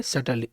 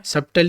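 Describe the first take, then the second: First: "subtly" said sut-lee, silent b; right pronunciation. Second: "subtly" with the b sounded, sub-tuh-lee; wrong pronunciation. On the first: Teacher gives the correct "subtly" with a silent b. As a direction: say "subtly" with no b sound, slowly. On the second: Teacher shows the wrong way to say "subtly", b sounded. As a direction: mispronounce "subtly" by saying the b. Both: Shown as a demonstration. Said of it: "subtly नहीं पढ़ेंगे".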